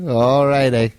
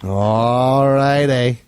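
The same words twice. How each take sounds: First: Said in the usual way. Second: Very slow, stretched All righty; drawn out. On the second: Pretend. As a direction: drag out All righty lazily. Sign-off repeated.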